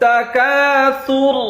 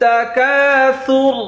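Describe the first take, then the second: No difference in how they are said.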